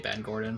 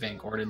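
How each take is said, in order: First: The name starts with a B sound. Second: The name starts with a V sound. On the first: Spanish speakers said it this way. "They'd say Ben Gordon" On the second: This is the name's usual form. "my last name is Van Gordon"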